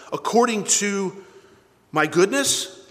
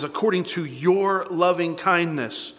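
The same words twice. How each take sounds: First: "my goodness" lifted as a doubtful question. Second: "your" drawn out slowly and firmly; slow down and lean on "your"; stress on YOUR. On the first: Preacher testing a wrong reading, questioning "my goodness". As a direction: query "my goodness" as the wrong answer. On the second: Preacher correcting the wrong reading, slow stress on "your". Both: Shown as a demonstration.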